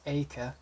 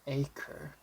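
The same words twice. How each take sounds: First: It ends without an R sound. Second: It ends with a light R sound. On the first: "If you're pronouncing in the British way, you don't have to. Just acre" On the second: "there's a little R in the end. That's for American pronunciation"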